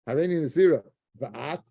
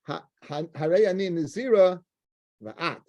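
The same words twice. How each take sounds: First: It is said with a questioning tune. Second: It is said as a flat statement. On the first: The speaker asks whether the other will also be a nazirite. "It's a shaila. So that that's it's an inflection" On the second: The speaker declares that both of them are nazirites. "In other words, I'm nazira and you"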